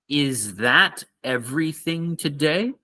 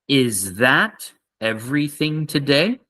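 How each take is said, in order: Both takes have the same delivery.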